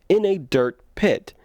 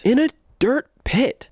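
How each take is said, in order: First: Said in the usual way. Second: Dirt pit said high and loud; In a dirt pit, stressed with disbelief; incredulous. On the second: Real, not acted. Mocking the film's choice.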